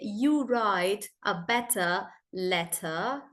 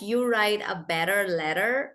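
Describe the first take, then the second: First: It is said in a British accent. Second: It is said in an American accent. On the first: "British would say" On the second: "for Americans, they roll their T's and their R's"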